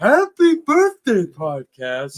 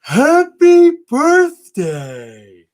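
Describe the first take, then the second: First: High, slow cartoon snowman; drawn-out snowman voice; Frosty the Snowman voice. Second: High, slow, drawn-out snowman voice; sing-song cartoon snowman; Frosty the Snowman voice. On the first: Repeats the Frosty bit. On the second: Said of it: "Can you do your best Frosty the Snowman impression?".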